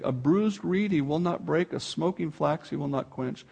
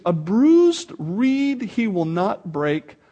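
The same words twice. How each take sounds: First: "A bruised reed he will not break" said softly and tenderly; gentle, soft reading. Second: "A bruised reed he will not break" drawn out slowly, each word weighted; slow emphatic reading. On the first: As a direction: read it softly, like the gentleness described. Quiet rereading of the verse. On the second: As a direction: proclaim it slowly and firmly. Scripture read with full force. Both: Acted.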